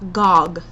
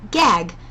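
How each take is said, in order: First: The vowel is open at the back. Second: The vowel is not open at the back. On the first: The speaker calls it right. "very open in the back of your throat" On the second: The speaker calls it wrong. "instead of being like gag"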